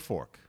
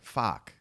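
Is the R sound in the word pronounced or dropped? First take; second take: pronounced; dropped. First: The R sound is clearly pronounced. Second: The R sound is dropped. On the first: "if there's an R in a word, say like fork, you'd say fork" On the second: "We say fuck"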